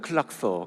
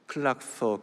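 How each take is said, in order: First: The word is said quickly and run together. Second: The word is said at a normal, careful pace.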